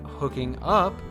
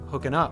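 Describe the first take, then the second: First: The two words are said separately and fully. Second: The two words run together with a reduced vowel. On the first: "instead of saying hooking up" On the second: "Rihanna says hooking up"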